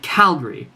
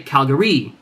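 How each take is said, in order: First: The stress falls on the first syllable. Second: The stress falls on a later syllable. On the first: The speaker calls it right. "The Cal is the loudest part" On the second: The speaker calls it wrong. "I would never say Calgary. That sounds silly"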